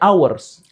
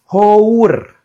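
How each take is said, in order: First: The word starts with a vowel, no h. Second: The word starts with an audible h sound. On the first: This is how English speakers actually say it. "Orang sana nyebutnya hours" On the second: This is how the spelling suggests it should sound. "saya nyebutnya hour"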